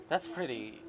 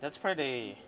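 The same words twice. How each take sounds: The two takes are said the same way.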